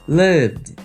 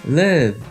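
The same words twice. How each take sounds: Both takes have the same delivery.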